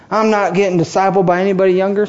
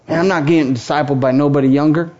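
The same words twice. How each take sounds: First: Put-on quick, lightly drawled Southern accent; a hint of Southern accent mocking older churchgoers. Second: Said in the usual way. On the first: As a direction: toss it off like a stubborn Southern elder. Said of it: "Some of you are Southern all of a sudden". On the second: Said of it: "I hear it right now".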